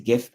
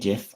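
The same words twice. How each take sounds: First: The word begins with a hard g sound. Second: The word begins with a j sound. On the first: This is how the speaker says it. "I call them GIFs because the word is graphical" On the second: Other people say it this way. "Some people say GIF"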